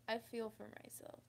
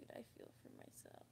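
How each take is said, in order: First: Said in the usual way. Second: Real, barely voiced and much softer, near tears; breaking down to a whisper; choked whisper. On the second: Real, not acted. Pitying her past self while holding back tears, choked whisper. Tearing up retelling hug.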